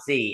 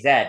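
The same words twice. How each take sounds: First: The letter is said the American way, zee. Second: The letter is said the British way, zed.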